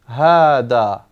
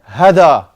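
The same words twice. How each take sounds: First: The first vowel is long. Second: The first vowel is short. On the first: The speaker calls it right. "as if it's written like this. Hada. This is how we pronounce it" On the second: The speaker calls it wrong. "you want to just pronounce it like you write it, it's hada. Totally wrong"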